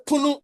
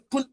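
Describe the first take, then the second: First: "punu" with the final u kept; Twi-style "punu", ending on a vowel; Twi pronunciation. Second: "pun" with the final u dropped; Fanti-style "pun", no vowel after the nasal; Fanti pronunciation. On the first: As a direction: say "punu" as two syllables. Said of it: "Twi will say punu". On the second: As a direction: say "pun" ending on the n. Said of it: "Fanti will say pun". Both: Shown as a demonstration.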